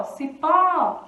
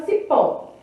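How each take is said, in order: First: "Cipó" with a long, emphatic PÓ; stress on last syllable. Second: Said in the usual way. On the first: Shown as a demonstration. Teacher showing the sílaba forte is pó, "Cipó" with PÓ drawn out. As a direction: stretch and push the PÓ of "Cipó". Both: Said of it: "A sílaba forte, então, é pó".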